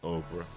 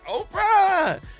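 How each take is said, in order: First: It is said flatly, without enthusiasm. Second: It is said with excitement.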